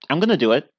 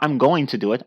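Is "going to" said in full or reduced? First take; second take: reduced; full. First: "Going to" is reduced to "gonna". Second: "Going to" is said in full. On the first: This is how natives usually say it. "we just say gonna" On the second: This is not how natives usually say it. "Not I'm going to do it"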